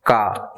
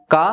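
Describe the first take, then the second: First: Said in the usual way. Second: का said with the nose held closed; nose pinched shut. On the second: Shown as a demonstration. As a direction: say का with your nose pinched shut, the sound unchanged. (नाक बंद करके का) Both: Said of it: "मैं example के तौर पे करके बता देता हूँ".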